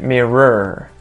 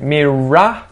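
First: It is said in an American accent. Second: It is said in an Australian accent. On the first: "As opposed to an American accent" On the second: "notice that Australian accent"

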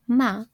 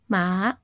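First: The pitch stays level and flat. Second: The pitch falls and then rises. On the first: It means mother. "with a flat tone, tone 1" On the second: It means horse. "which is falling, then rising tone"

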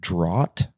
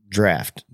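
First: The word does not rhyme with laugh. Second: The word rhymes with laugh. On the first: The speaker calls it wrong. "I pronounced it draught" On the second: The speaker calls it right. "it was pronounced draft, like laugh"

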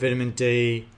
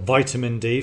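First: It is said in a British accent. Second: It is said in an American accent.

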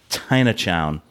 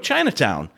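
First: The word starts with a t sound. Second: The word starts with a ch sound. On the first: The speaker calls it wrong. "That was fucking awful" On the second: The speaker calls it right. "then I said it right"

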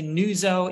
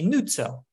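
First: The name is said with an American pronunciation. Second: The name is said with an Italian pronunciation. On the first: "In the U.S., we would say Nuzzo" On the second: "In Italy, you'd probably say Nuzzo"

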